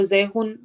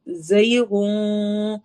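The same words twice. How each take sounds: First: زیغن said the Urdu way, noon plainly sounded; Urdu-style pronunciation. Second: زیغن drawn out very slowly, the noon hidden in a nasal hum. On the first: Tajweed teacher showing students the wrong way, Urdu style. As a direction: speak زیغن like ordinary Urdu, no nasal hiding. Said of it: "اس کو زیغن Urdu style میں نہیں". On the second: Tajweed teacher showing students the correct recitation. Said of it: "جو غن میں نون چھپا ہوا ہے، اس کو چھپا کے پڑھیں گے". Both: Shown as a demonstration.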